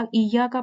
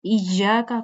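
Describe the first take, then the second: First: "ایاک" as iyaaka, single y; missing tashdeed. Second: Slow "ایاک" as iy-yaaka, doubled y; correct tashdeed. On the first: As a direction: say "ایاک" lightly without doubling. ("ایاک" تشدید کے بغیر) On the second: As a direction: hold the y in "ایاک". ("ایاک" ٹھہر کر، تشدید کے ساتھ) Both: Shown as a demonstration. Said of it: "ایاک پڑھتے ہیں".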